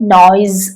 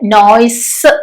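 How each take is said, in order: First: The word ends with a z sound. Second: The word ends with an s sound. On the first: The speaker calls it right. "ആ സെഡ്, ആ ശബ്ദം വരണേ" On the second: The speaker calls it wrong. "ഇവിടെ നോയ്സ് അല്ല കേട്ടോ, എസ് അല്ല"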